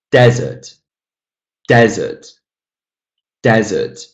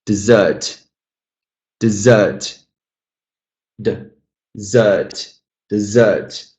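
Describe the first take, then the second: First: "Desert" punched on DEZ, falling away; stress on first syllable. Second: "Dessert" stressed on ZERT, light first syllable; stress on second syllable. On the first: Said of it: "I'm stressing the first syllable". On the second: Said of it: "stress the second syllable out of two". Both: Shown as a demonstration.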